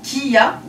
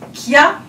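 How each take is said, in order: First: It is said as two separate syllables. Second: It is said as one single syllable. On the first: "deux syllabes" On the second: "une seule syllabe"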